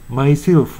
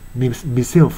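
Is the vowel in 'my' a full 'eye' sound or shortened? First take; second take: full; shortened. First: 'My' has the full diphthong vowel. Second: 'My' is shortened to a plain 'ma' or 'mi'.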